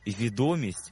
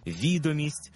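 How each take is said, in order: First: Відомість with ДО stressed; stress on second syllable. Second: Відомість with ВІ stressed; stress on first syllable. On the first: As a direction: hit ДО in відомість, the popularity word. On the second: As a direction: hit ВІ in Відомість, the document word. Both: Shown as a demonstration. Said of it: "за допомогою наголосу змінюється своє значення".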